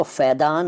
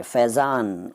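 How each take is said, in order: First: फैदान with d replacing z. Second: Said in the usual way. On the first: Shown as a demonstration. Teacher showing the rejected form, फैदान with d for z. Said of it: "नहीं कहते". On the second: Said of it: "फैदान नहीं कहते".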